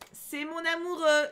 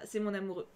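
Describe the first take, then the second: First: Slow, higher, drawn-out "amoureux"; lingering lovestruck repetition; dreamy swoon. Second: Said in the usual way. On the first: Shown as a demonstration. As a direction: sigh it like a lovesick teen. Swooning over Nevra.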